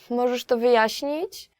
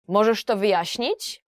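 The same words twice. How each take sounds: First: It sounds like politely asking a favor. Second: It sounds angry and demanding.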